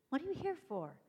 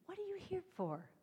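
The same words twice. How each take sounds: First: "you" carries the weight in "What are you here for?"; stress on YOU. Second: "are" pitched high in "What are you here for?"; stress on ARE. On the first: Speaker challenging each listener, stressing you. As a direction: lean on "you", pointing at them. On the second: Speaker challenging the audience, stressing are. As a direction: lift "are" well above the rest. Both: Shown as a demonstration. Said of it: "that's what I say to you".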